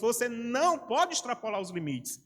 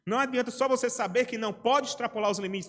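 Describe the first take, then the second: First: Slower, with the "não" hit hard and falling; stress on não. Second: Said in the usual way. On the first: Shown as a demonstration. Preacher pressing his congregation with a slow, stressed "não". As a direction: lean on the word "não" and drag the line out.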